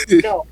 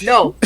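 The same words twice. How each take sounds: First: Very high squeaky no; squealed no. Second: Firm shouted no; loud no. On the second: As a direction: shut it down loudly. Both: Acted. Teasing refusal to move on.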